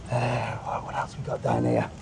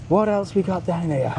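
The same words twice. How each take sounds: First: Whispered to himself; hushed, under the breath. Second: Said in the usual way. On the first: Real, not acted. Muttering to himself before saying it aloud, whispered.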